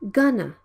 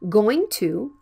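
First: The words are reduced and blended into one. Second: Both words are pronounced fully and separately. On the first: "usually in spoken English, many people say gonna"

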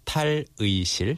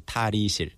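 First: The middle vowel is pronounced as 'ui'. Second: The middle vowel is pronounced as 'i'. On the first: "tal-ui is supposed to be pronounced as 의 in the original pronunciation" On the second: "They say 다리실"

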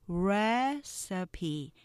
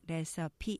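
First: The first syllable is strong, the rest weak. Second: All syllables are even and choppy. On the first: The speaker calls it right. "첫 번째 음절 액센트 맞춰서 recipe" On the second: The speaker calls it wrong. "그냥 recipe 하면 스타카토 발음이 되지만"

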